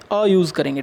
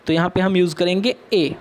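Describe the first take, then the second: First: Article "अ" said as a short neutral "uh". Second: Article "ए" said as a long "e". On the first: Teacher correcting herself to the children, a short "अ" like uh. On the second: Teacher to children, first saying the article "ए" as a long e. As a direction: give "ए" its full letter name, a long e. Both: Shown as a demonstration.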